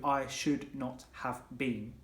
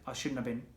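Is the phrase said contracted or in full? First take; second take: full; contracted. First: Every word is said fully and separately. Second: The words are contracted and run together.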